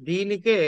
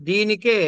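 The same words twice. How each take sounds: The two takes are said the same way.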